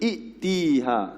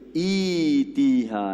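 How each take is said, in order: First: A glottal stop follows the first vowel. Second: A long 'ee' glides into a 'y' sound. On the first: The speaker calls it wrong. "Walaupun tulisan dia hamzah qata', tak boleh baca i'tiha" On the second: The speaker calls it right. "Kita kena baca i dua harakat. Hamzah tu ditukar kepada ya"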